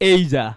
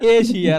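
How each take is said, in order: First: The middle consonant is a 'zh' sound. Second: The middle consonant is a 'sh' sound. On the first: This is the dictionary pronunciation. The speaker calls it right. "You'll find they are pronouncing it's Asia" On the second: This is a local pronunciation. The speaker calls it wrong. "এশিয়া is a Bangladeshi pronunciation"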